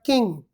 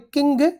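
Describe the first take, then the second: First: The word ends with a nasal ng sound. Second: The word ends with a hard g sound. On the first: The speaker calls it right. "but king" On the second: The speaker calls it wrong. "This is not a king"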